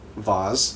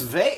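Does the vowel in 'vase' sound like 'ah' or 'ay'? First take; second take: ah; ay. First: The vowel sounds like 'ah', rhyming with 'Oz'. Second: The vowel sounds like 'ay', rhyming with 'face'. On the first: Someone else said it this unusual way. The speaker calls it wrong. "Did you notice the way that the lady nurse says" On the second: This is the usual everyday way to say it. The speaker calls it right. "It's vase"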